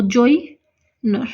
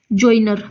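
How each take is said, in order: First: Slow drawn-out word. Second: Said in the usual way. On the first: Shown as a demonstration. Teacher dictating while writing shorthand, slow and stretched. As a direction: stretch joiner out syllable by syllable, slowly. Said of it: "इस तरीके से". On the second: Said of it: "जैसे".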